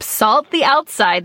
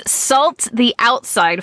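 First: Slow, with weight on the; firm repeated tip; stressed tip. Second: Slow, deliberate salt the outside; drawn-out salt the outside; stressed tip. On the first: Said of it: "That is my tip". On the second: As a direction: lean on the tip, slowly. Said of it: "Do not salt your actual burger meat". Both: Shown as a demonstration.

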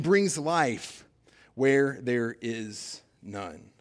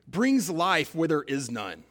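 First: Drawn out, word by word; slow emphatic phrasing. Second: Said in the usual way. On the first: Shown as a demonstration. Preacher slowing down to stress new life. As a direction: let each word land slowly.

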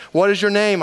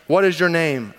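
First: "What is your name?" demanded louder and higher, stress on your; insisting. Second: Said in the usual way. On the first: A narrator's reading. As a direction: press the demon for its name. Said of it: "I insisted". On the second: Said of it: "I said".

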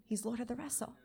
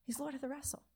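First: Said in the usual way. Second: Softer, higher, hushed repeat; hushed reverent echo. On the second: Real, not acted. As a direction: let the repeat sink into a reverent hush. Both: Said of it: "repeated softer".

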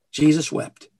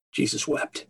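First: Said in the usual way. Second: Breathy hushed whisper, full of grief. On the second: Acted. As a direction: whisper it as if at the graveside. Preacher repeats the verse hushed.

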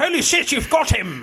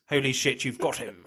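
First: Excited exclamation. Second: Softer, deadpan British understatement with a laugh at the end; understated exclamation. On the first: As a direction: yelp it out like the big moment just landed. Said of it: "He says". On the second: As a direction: say it flat and quiet, as if nothing much happened. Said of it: "but he actually just says". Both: Retold or imitated.

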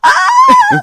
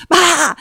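First: Very high, piercing, long scream; mock terrified scream. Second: Sudden loud, high "bah!"; mock scare shout. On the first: Startled colleague opening elevator on hidden prankster, full mock scream. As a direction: shriek like someone ambushed. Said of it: "And she goes". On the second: Prankster springing from elevator at colleague, loud mock scare shout. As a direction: jump out and startle someone. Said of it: "I go".

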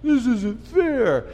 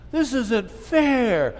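First: Slow, hammed-up pout with hands on hips; mock pouting protest, slow; pouty complaint. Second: Mock childish protest, slow; a slow, whining "This isn't fair" to God; slow whiny complaint. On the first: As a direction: sulk it out like a child stamping. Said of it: "And put a little pout". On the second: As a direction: drag it out slowly like a sulky grumble. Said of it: "Have you ever said that?".

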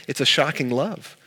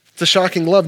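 First: Said in the usual way. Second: "It's a shocking love." repeated louder, with weight on "love"; emphatic restatement. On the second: Shown as a demonstration. Preacher repeating the line to the congregation, louder on "love". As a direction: punch "love" the second time round.

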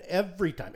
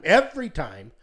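First: Said in the usual way. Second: EVERY hit much louder and higher; "every" thrown out loud and high; emphatic repeat. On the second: Real, not acted. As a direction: punch EVERY hard, drive the point home. Preacher repeats phrase for emphasis.

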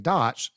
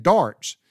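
First: "dots" said slowly, with no r; R-less darts. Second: "darts" slow and loud with a full r; R pronounced. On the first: Explaining the misheard word, stressed R-less dots. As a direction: stress "dots", open vowel and no R. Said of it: "she wasn't saying dots". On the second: Revealing what she really meant, R stressed. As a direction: punch "darts", sounding the R clearly. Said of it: "She was saying darts". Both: Shown as a demonstration.

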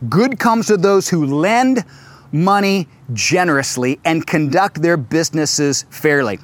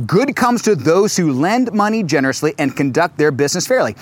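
First: Scripture reading. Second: Said in the usual way. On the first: Shown as a demonstration. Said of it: "Look, Psalm one twelve, verse five". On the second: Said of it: "There's blessing in godly lending".

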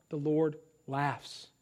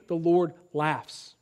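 First: Much softer, slow near-whisper of "The Lord laughs"; a quiet, awed echo; hushed repeat. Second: Slow, deliberate, stressing "Lord"; a measured proclamation; slow emphatic declaration. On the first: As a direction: drop way down and let it sink in. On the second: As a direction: land "The Lord laughs" slowly, with weight on "Lord". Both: Shown as a demonstration.

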